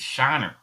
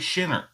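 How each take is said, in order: First: The first syllable sounds like 'shine'. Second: The first syllable sounds like 'shin'. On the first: The speaker calls it right. "It's Shiner" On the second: The speaker calls it wrong. "Don't say Shinner"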